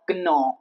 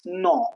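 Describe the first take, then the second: First: The word begins with an audible G sound. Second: The word begins with no G sound. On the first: The speaker calls it wrong. "it's not gnaw" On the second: The speaker calls it right. "it's no"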